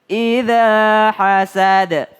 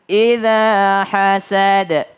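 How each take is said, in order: The two takes are said the same way.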